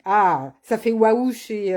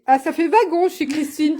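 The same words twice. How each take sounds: First: Slow, savoured waouh, read aloud; drawn-out waouh. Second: Wagon read out just as typed, puzzled; misread comment. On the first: Reading a viewer's comment, waouh drawn out slowly. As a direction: stretch out waouh as a compliment from a comment. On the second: Reading the typo in Christine's comment aloud, puzzled. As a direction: say wagon flatly where waouh was meant. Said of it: "tiens, c'est bizarre". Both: Shown as a demonstration.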